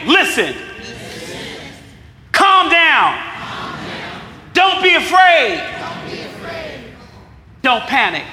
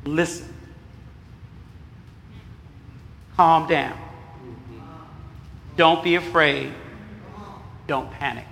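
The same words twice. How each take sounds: First: Loud call-out. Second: Soft, low, spaced-out reassurance; soft calming list. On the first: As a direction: belt the four commands out to the room. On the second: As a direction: say each line gently, with pauses between. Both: Shown as a demonstration. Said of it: "So repeat after me".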